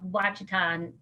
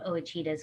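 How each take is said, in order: First: The word starts with a plain W sound. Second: The word starts with an O sound. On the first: This is the usual outside pronunciation. "it's called Wachita" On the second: This is how the locals say it. "they pronounce the O"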